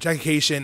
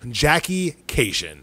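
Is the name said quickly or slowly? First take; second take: quickly; slowly. First: The name is said very quickly. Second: The name is said slowly and clearly.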